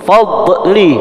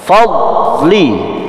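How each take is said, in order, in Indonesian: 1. Setelah d ada suara tambahan. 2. Huruf d berhenti senyap, tanpa suara tambahan. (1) "masih ada suara tambahan" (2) "Tidak ada suara tambahan di dot"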